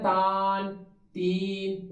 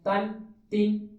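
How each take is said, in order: First: The first vowel is drawn out long. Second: The first vowel is kept short. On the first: The speaker calls it wrong. "अगर हम करेंगे ना तान तीन, गलत हो जाएगा" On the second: The speaker calls it right. "हम लफ्ज पढ़े हैं तन तीन तुन"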